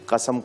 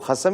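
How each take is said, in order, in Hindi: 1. शब्द की शुरुआत रोक वाली k ध्वनि से होती है। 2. शब्द की शुरुआत रगड़ वाली kh ध्वनि से होती है। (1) "कसम को" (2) "खसम ही कहेंगी"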